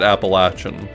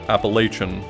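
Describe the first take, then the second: First: It is said the way the mountain locals say it. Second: It is said the way outsiders say it. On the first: This is how people from the region say it. The speaker calls it right. "the part of the mountains where they pronounce it Appalachian" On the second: This is how people from elsewhere say it. The speaker calls it wrong. "people in the past who pronounce it Appalachian... it's incorrect"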